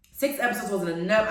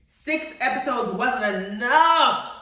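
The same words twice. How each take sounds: First: Said in the usual way. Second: Slow, emphatic complaint; drawn-out lament. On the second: Real, not acted. Viewer laments the short season, drawn-out protest. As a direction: stretch out "enough" as a wail of protest. Complains, then repeats it quickly.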